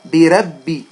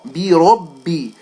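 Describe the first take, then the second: First: The r sound is thin and light. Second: The r sound is full and heavy. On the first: The speaker calls it wrong. "they will make this ra with a fatha light" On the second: The speaker calls it right. "when a ra with a fatha should be heavy"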